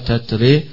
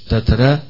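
First: The final vowel leans strongly toward e. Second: The final vowel is between a and e. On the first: "بالإمالة" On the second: "بالتقليل زي ورش"

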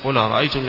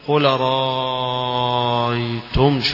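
First: The first glottal stop is dropped, linking into qul. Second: A vowel is drawn out with a long lengthening. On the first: "لأنه ينقل الهمزة الأولى على طريقته" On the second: "يمد مدا طويلة"

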